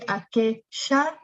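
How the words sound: The double L is said with a sh sound. "they say aquella"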